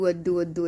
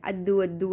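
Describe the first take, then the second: First: Put-on lisping little-kid voice repeating Addu; lightly voiced toddler lisp; imitating toddler baby talk. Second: Put-on lisping little-kid voice asking for laddu; lightly voiced toddler lisp; imitating toddler baby talk. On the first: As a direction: mimic a toddler begging for sweets. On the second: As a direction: mimic a toddler saying laddu as Addu. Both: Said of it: "ऐसे करता रह रहा था".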